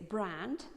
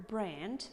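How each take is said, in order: First: "brand" with an open A; "brand" with a pure A, no E glide; British A. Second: "brand" with the A moved toward E; "brand" as "breand"; American A. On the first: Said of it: "British accent". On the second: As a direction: say "brand" American, raised vowel. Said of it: "American accent". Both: Shown as a demonstration.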